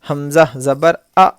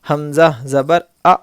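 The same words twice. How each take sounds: Both takes have the same delivery.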